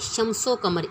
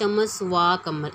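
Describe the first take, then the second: First: The 'o' is joined onto the first word. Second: 'Wa' is said as a separate word. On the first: The speaker calls it right. "ये है शमसो कमर" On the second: The speaker calls it wrong. "इसको ये ऐसे नहीं पढ़ना"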